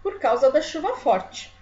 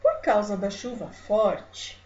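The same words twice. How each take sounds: First: "forte" falling to a full stop; final stop intonation. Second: Slow, "forte" held open as if more follows; comma pause intonation. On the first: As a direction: end "chuva forte" with a falling, closing tune. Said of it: "se eu usasse um ponto final no lugar da vírgula". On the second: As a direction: read it slowly, leaving "forte" hanging. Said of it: "com a vírgula eu vou fazer assim". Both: Shown as a demonstration.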